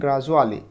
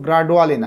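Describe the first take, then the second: First: The consonant after 'gra' is a 'j' sound. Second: The consonant after 'gra' is a plain 'd'. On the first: The speaker calls it right. "এটার উচ্চারণ গ্রাজুয়ালি, এডুকেশনের মতো" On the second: The speaker calls it wrong. "এটা কিন্তু গ্রাডুয়ালি না"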